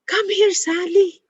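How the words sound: It sounds lively and excited. "in an excited uh, uh, tone"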